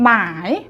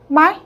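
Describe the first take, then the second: First: The syllable is said long, in the standard tone. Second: The syllable is said short, in the third tone. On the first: It is the textbook pronunciation. "정석적으로 발음하면" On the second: It is the natural spoken pronunciation. "세련되게 발음하자고요. 그러면은 이제 단음의 이제 삼성으로"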